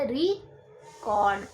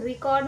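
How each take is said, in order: First: The stress is on the first syllable. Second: The stress is on the second syllable. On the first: The word is a noun. "ज़्यादा जोर दिया री पे और cord पे कम दिया" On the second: The word is a verb. "री cord पे ज़्यादा एम्फेसाइज करेंगे"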